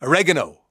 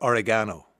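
First: "oregano" stressed on the second syllable, o-REG-ano; American oregano. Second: "oregano" as o-ri-GAH-no; oregano stressed on GAN. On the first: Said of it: "It's the American way". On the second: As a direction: say "oregano" with stress on the third syllable. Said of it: "playing around with the pronunciation". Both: Shown as a demonstration.

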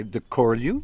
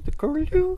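First: Said in the usual way. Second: High piping curlew cry; curlew bird call. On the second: Shown as a demonstration. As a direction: sing it like the bird. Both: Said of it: "named after their call".

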